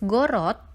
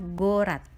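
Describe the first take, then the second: First: The last syllable has a full O sound. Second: The last syllable has a reduced A sound. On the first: "kata ditulis gorot" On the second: "harus dibunyikan dengan A. Sehingga untuk kata ini kita membacanya gorat"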